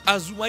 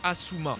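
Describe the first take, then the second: First: The middle consonant is a voiced z sound. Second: The middle consonant is a voiceless s sound. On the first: This is how the characters say the name. "Ils disent Azuma" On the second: This is not how the characters say the name. "ils disent pas Asuma"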